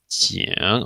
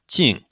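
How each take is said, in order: First: The pitch dips low, then rises. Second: The pitch falls sharply from high. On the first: It means an alarm. "in the third tone, we have qing" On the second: It means an outcome. "And lastly"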